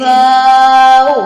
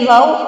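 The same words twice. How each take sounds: First: The vowel is drawn out long. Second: The vowel is said short. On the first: The speaker calls it right. "वो लंबा होगा, ऐसे वाव" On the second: The speaker calls it wrong. "वाव ऐसे नहीं पढ़ेंगे"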